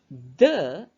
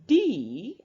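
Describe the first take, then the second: First: The word ends in a short 'uh' vowel. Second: The word ends in a long 'ee' vowel. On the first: The next word starts with a consonant. "Kita mengucapkan dengan bunyi the apabila diikuti oleh kata benda yang diawali konsonan" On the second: The next word starts with a vowel. "the akan menjadi bunyinya di apabila diikuti oleh kata benda yang diawali huruf vokal"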